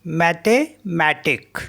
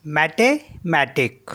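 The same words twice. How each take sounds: The two takes are said the same way.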